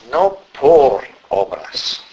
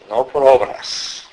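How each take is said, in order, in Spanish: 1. El énfasis recae en la palabra por. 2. El énfasis recae en la palabra obras. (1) "vamos a enfatizar más bien la preposición" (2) "la hemos ido pronunciando con énfasis sobre la palabra obras"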